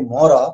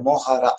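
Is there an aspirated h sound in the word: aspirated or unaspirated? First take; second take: unaspirated; aspirated. First: The word is said without an aspirated h sound. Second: The word is said with an aspirated h sound. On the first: "A lot of people will say mora" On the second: "that has aspirated syllable is there"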